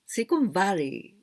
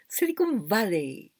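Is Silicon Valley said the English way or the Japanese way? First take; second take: English; English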